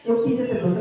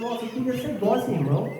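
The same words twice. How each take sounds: First: Said in the usual way. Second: A hint of a mild-mannered friend; meek friend impression. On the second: Preacher imitates his mild friend wishing to be sweet, meek. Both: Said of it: "um amigo que ele é manso demais".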